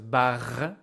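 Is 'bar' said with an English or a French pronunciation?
French. The word is said with a French pronunciation. The speaker calls it right. "it's a bar"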